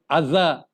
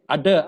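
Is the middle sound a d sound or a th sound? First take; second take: th sound; d sound. First: The middle consonant is a th sound. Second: The middle consonant is a d sound. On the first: The speaker calls it right. "We say other, other, the T H sound" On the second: The speaker calls it wrong. "So we don't say udder"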